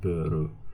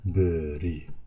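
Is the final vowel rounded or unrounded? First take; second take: rounded; unrounded. First: The final vowel is a rounded u. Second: The final vowel is an unrounded i. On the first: The speaker calls it wrong. "not beru" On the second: The speaker calls it right. "but beri, not u"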